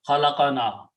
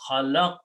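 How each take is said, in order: First: An extra 'a' vowel comes before the 'na'. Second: No vowel comes between the q and 'na'. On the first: He created us. The speaker calls it wrong. "and it sounded like fataha" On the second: We created. The speaker calls it right. "we should pronounce khalaqna"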